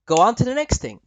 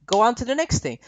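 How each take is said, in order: Both takes have the same delivery.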